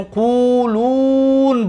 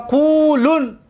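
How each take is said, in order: First: قولون as quluun, very long second u; waw kept. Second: قولون as qulun, short second u; dropped waw. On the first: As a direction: stretch the last vowel of قولون on a held high note. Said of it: "واو داشت". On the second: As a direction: keep the last vowel of قولون short before n. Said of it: "واو رو حذف کردیم". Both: Shown as a demonstration.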